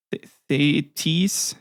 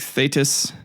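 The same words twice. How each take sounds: First: Thetis slowly sounded out as THAY-teez; alternative pronunciation. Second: Thetis said THAY-tus; tentative pronunciation. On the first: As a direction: give Thetis a long -teez ending. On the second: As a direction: say Thetis with an unstressed short -tus ending. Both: Shown as a demonstration. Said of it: "I might be pronouncing her name wrong".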